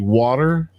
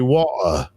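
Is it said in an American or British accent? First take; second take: American; British. First: It is said in an American accent. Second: It is said in a British accent.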